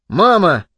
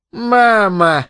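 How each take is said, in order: First: Short reproachful exclamation; son's protest. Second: Higher, drawn-out mock of the boy; mocking mimicry. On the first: Embarrassed son protests at mother's talk, reproachful. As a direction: object briefly, in the boy's voice. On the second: Mother mimics her son's protest, mocking. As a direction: mimic his protest, stretching it out. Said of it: "передразнила она Генри". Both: A narrator's reading.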